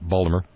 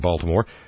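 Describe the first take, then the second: First: The name is said in a local Baltimore pronunciation. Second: The name is said in a standard pronunciation.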